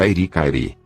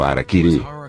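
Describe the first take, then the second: First: The vowels follow the pattern hari-kari. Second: The vowels follow the pattern hara-kiri. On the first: The speaker calls it wrong. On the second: The speaker calls it right.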